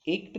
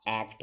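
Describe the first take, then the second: First: एक्ट as "ekt"; higher-pitched एक्ट with a closed e; wrong ए vowel. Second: एक्ट as English "act"; correct ऐ vowel. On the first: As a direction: say एक्ट with a long, tight "ay". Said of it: "एक्ट नहीं होता". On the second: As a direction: open "ae" in एक्ट. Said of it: "एक्ट होता है". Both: Shown as a demonstration.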